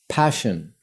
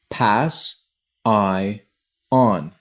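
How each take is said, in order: First: The word is said whole without breaks. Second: The word is split into three separate parts.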